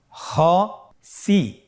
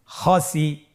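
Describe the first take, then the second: First: "খসি" very slowly in two separate syllables; syllables apart. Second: "খসি" run together as one word; syllables joined. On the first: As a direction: split "খসি" with a clear pause between syllables. ("খসি" ভেঙে ভেঙে ধীরে) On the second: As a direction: blend both syllables of "খসি" without a break. ("খসি" একসাথে মিলিয়ে) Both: Shown as a demonstration. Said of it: "এভাবেও পড়তে পারেন".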